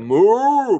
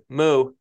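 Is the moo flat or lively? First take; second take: lively; flat. First: It is said lively, with more intonation. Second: It is said flat, with no intonation.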